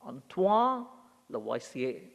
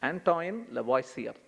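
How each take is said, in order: First: The name is said with a French pronunciation. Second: The name is said with a non-French pronunciation. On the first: This is the name's actual pronunciation. The speaker calls it right. "it's actually Antoine Lavoisier" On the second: This is how it was learned at school. The speaker calls it wrong. "I I remembered from school"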